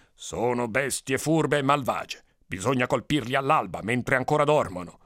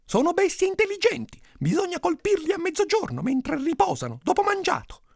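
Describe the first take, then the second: First: Scheming villager. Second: Very high, squeaky-pitched schemer; high-voiced villager. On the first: Acted. First villager proposes dawn attack. (paesano che consiglia, lento e grave) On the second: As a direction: propose the plan in a falsetto-high voice. Second villager proposes midday attack. (paesano dalla voce acutissima)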